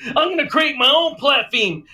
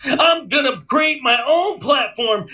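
First: Heated rant repeated. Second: Heated rant. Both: Retold or imitated. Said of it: "he goes like this".

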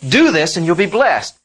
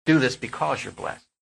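First: Louder, higher, a firm demand; stern law voice. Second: Gentle grace voice. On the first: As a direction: lay down the law, firm and loud. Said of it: "The law said". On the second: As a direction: say it gently, as a gift. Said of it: "Grace says". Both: Shown as a demonstration.

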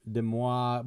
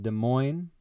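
First: Des Moines said the French way, ending in mwah; mock-French Des Moines, day mwah; a posh French take on Des Moines. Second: Des Moines said the local way, duh moyn; slow, plain everyday Des Moines; usual Des Moines. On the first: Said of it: "more commonly pronounced Des Moines". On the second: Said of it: "more commonly pronounced". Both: Shown as a demonstration.

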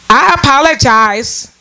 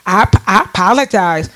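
First: I apologize drawn out slowly and pitched up, no meaning behind it; mocking apology, pitched up. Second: I apologize said lower and offhand; mocking apology, pitched down. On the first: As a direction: stretch it like a lazy catchphrase. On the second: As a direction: toss it off low, as if it costs nothing. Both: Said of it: "That's how they say it".

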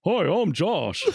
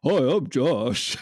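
First: A higher, louder mock Josh greeting; lightly voiced parody of a coworker saying hi; imitating Josh. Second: Slow, drawn-out mock Josh greeting, laughing; imitating Josh. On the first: [name] mocks [name]'s Josh impression, a touch higher. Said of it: "[name] doing his imitation of Josh". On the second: [name] shows the group his slow Josh impression. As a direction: stretch it out with a laugh. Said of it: "It clearly sounds more like this".

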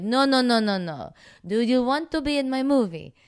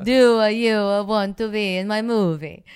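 First: Put-on higher, louder Italian accent with a new timbre; mock Italian director pushing harder. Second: Put-on higher, much louder Italian accent with a new timbre; hammed-up Italian accent retried. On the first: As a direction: ham up the Italian director's broken English. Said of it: "That's better". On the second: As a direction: push the Italian director's broken English. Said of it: "it still terrible".

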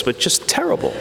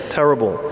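First: Terrible lifted much higher with a rise; first terrible soaring up in pitch; rising terrible. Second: Said in the usual way. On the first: Real, not acted. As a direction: stretch terrible up high, then let it hang. Repeating terrible for emphasis.

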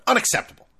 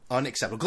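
First: Unacceptable, barked high and loud; loud outburst. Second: Said in the usual way. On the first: Real, not acted. Angry fan ranting about a blown save, loud outburst. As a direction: hit it hard and high, a furious fan.

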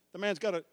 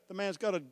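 The two takes are said the same way.

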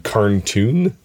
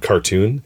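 First: "carntoon" with an N slipped in after car; slow "carntoon", the extra N clearly heard; brother's mispronunciation. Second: Said in the usual way. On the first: Retold or imitated. Teasing brother Dave, "carntoon" with an added N. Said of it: "he said carntoon". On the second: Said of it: "instead of cartoon".

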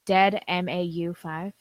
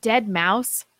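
First: "[name]" spelled out slowly letter by letter. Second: "Dead mouse" said as one plain word; read as a word. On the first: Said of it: "How do you spell it". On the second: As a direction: say "Dead mouse" as ordinary words. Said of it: "they're saying". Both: Shown as a demonstration.

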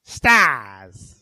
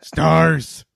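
First: A hint of a monster shout; Nemesis impression. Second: A hint of a monster shout, more menace; Nemesis impression. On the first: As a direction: bark it out like a monster. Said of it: "I better do my Nemesis impression". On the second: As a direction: snarl it like a monster. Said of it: "That's better".

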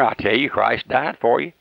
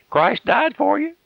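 First: Said in the usual way. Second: Christ died for you lifted high and drawn out; high, slow, pleading repeat. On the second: Acted. Preacher pleading high and slow with the listening sinner. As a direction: stretch it out high, begging the sinner. Repeats it slower and far higher.

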